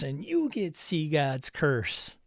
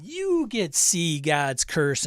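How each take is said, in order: First: Talk-show giveaway again. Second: Slow, stressed "you", like a host handing out prizes; talk-show giveaway. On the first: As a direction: point at the next guest, slow and grand. Giveaway announcement repeated to next person. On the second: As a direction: announce it like a game-show giveaway. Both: Pretend.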